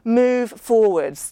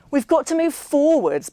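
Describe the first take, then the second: First: Slow and loud, each word pressed; emphatic repeat. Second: Loud and higher, cutting Millie off; said loudly. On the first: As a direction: hammer the two words home. Ben hammering his point home. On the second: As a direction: drown out the table with it. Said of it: "Ben said loudly". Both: Acted.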